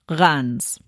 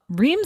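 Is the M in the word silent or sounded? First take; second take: silent; sounded. First: The word has a short a and silent M. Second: The word is said with the M sounded. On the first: The speaker calls it right. "The E I is said like a short A, and then you don't say the M" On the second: The speaker calls it wrong. "is how you read it"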